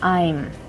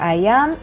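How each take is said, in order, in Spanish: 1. Se dice como una sola sílaba contraída. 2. Se dice como dos palabras completas y separadas. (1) "la forma hablada sería I'm" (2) "La forma escrita sería I am"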